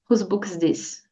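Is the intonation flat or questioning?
flat. It is said flatly, like a statement. It sounds like a statement, not a question. The speaker calls it wrong. "Não diga"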